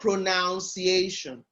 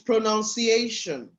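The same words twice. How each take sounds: First: The second syllable sounds like 'noun'. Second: The second syllable sounds like 'nun'. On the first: The speaker calls it wrong. "not pronunciation. So it's not a pronoun" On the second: The speaker calls it right. "The word actually is pronunciation"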